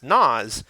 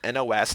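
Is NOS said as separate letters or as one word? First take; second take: word; letters. First: It is said as a single word. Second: Each letter is said separately. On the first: The speaker calls it wrong. "isn't actually pronounced" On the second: The speaker calls it right. "pronounced by reading each letter"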